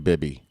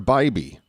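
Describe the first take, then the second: First: The first vowel is a short i sound. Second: The first vowel is a long i sound. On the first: "It's probably Bibby" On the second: "I'm gonna go with the with the long eye"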